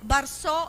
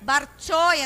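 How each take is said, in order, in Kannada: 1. ಮಧ್ಯದ ವ್ಯಂಜನ s ಧ್ವನಿ ಆಗಿದೆ. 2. ಮಧ್ಯದ ವ್ಯಂಜನ ch ಧ್ವನಿ ಆಗಿದೆ. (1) "ബർസോ എന്ന് പറയുന്നതിനെ" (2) "ബർച്ചോ എന്നാണ് ഹരിജന ഭാഷാഭേദത്തിൽ സ ചായായി മാറുന്ന"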